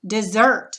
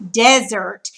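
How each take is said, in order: First: Desert said dih-ZERT, end stressed; second-syllable stress. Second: Desert said DEZ-ert, front stressed; first-syllable stress. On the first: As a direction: put the weight on ZERT in Desert. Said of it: "accent is gonna go over the second syllable". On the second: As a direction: punch DEZ at the start of desert. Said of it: "accent mark goes over the S". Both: Shown as a demonstration.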